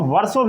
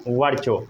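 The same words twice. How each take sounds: First: वर्षों with an s sound in place of ch; the "varso" reading of वर्षों; alternative pronunciation. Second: Said in the usual way. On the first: Shown as a demonstration. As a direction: say वर्षों as "varso", not "varcho". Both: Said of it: "कई लोग इसको वर्षों भी पढ़ते हैं".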